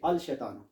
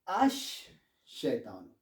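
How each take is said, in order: First: The L is clearly pronounced before sh. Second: The L merges into a doubled sh sound. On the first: The speaker calls it wrong. "You don't say Al Shaitano" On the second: The speaker calls it right. "You say Ash Shaitano"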